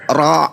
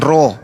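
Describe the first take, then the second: First: The vowel sounds like an a. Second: The vowel sounds like an o. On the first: The speaker calls it right. "tidak ada huruf O" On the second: The speaker calls it wrong. "Bukan ro"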